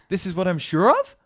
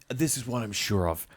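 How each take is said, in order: First: The pitch rises at the end. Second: The pitch falls at the end. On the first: The speaker sounds unsure, like asking a question. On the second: The speaker is confident. "ending the sentence with a downwards inflection"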